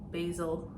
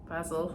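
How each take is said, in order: First: The word has an American pronunciation. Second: The word has a British pronunciation. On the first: "if you're American" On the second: "if you're British"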